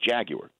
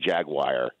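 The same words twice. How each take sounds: First: The word ends with a yoo-er sound. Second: The word ends with a wire sound. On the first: "the British don't pronounce the second A. It's Jaguar" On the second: "That jumps out at me whenever I hear people say Jaguar"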